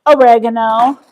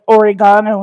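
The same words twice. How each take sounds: First: "oregano" with stress on REG, o-REG-a-no; short e in the stressed second syllable of "oregano"; American oregano. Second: "oregano" with stress on GA, or-i-GAH-no; long AH in the third syllable of "oregano"; oregano the non-American way. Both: Shown as a demonstration. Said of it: "or as the Americans say".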